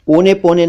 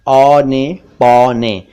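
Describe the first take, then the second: First: "ओने पौने" as "one pone", closed o in both; wrong o vowel. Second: "औने पौने" slowly, open au in both; correct au vowel. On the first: Teacher rejects the mistake, o sounds. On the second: Teacher corrects to slow au sounds. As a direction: stretch "औने पौने" as "aw-ne paw-ne". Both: Shown as a demonstration. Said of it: "ओने पौने नहीं".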